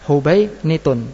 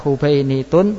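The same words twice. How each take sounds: First: No long 'ee' (ya) sound comes before the ending. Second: A long 'ee' (ya) sound comes before the ending. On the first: "boleh juga dibaca tanpa ya" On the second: "Boleh dibaca Hubainitun"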